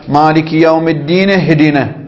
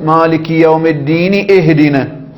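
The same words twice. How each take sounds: First: The words run together with no glottal stop. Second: A glottal stop is pronounced before 'ihdina'. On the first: "كان ينبغي أن تقول" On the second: "فإذا أظهرت الهمزة في حالة الوصل فقلت"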